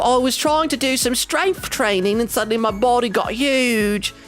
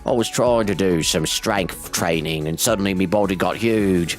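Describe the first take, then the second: First: The line is said in a normal voice. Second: The line is said in a deeper voice.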